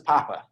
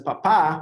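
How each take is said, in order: First: The stress is on the first syllable. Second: The stress is on the second syllable. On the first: It means potato. "papa is pronounced with the emphasis on this first one" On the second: It means dad. "shift the emphasis to the second one"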